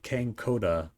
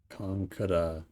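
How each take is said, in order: First: The middle vowel sounds like 'oh'. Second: The middle vowel sounds like 'ah'. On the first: The speaker calls it wrong. "I used to pronounce it Kankoda, but that isn't quite right" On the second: The speaker calls it right. "I want to get this right"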